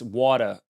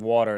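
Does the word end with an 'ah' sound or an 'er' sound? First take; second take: ah sound; er sound. First: The word ends in an 'ah' sound. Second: The word ends in an 'er' sound. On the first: "taking my the E Rs off and replacing them with A's" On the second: "instead of"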